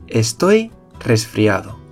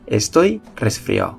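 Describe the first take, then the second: First: The d in the last syllable is pronounced. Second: The d in the last syllable is dropped.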